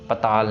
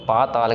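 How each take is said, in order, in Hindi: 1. पहला स्वर छोटा है। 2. पहला स्वर लंबा है। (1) "पताल नहीं कहना" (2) "पाताल कहना है"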